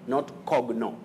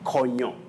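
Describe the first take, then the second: First: The g and n are sounded separately. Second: The g and n merge into one sound. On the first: The speaker calls it wrong. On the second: The speaker calls it right. "That G and N takes the sounding ng"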